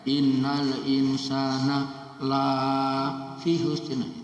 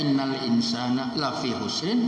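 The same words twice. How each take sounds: First: The vowel of 'la' is drawn out long. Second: The vowel of 'la' is kept short. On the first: Humans are not at a loss. The speaker calls it wrong. "Kalau dibaca panjang nanti malah tidak" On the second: Humans are truly at a loss. The speaker calls it right. "Maka dibaca pendek"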